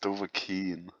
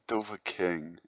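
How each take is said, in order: First: The last syllable sounds like 'keen'. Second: The last syllable sounds like 'king'. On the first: The speaker calls it right. "It's Dover Keen" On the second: The speaker calls it wrong. "It's not Dover King"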